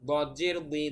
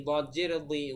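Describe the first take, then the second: Both takes have the same delivery.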